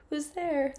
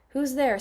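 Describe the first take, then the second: First: Put-on higher, sweeter old-granny voice; retake, high and granny-like; wolf posing as grandmother. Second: Loud, punchy wolf-as-granny call; first, louder take of the wolf's granny call; wolf posing as grandmother. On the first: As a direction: lift it up into a fake grandma tone. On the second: Acted. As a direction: bark the question like a disguised wolf. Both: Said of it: "said the wolf, pretending to be grandmother".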